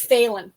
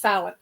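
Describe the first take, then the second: First: The name is said as 'Phelan', A sounded. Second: The name is said as 'Fallon'. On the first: The speaker calls it right. "but it's Phelan, P H A, like pronounce the A" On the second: The speaker calls it wrong. "I would actually get called Missus Fallon all the time"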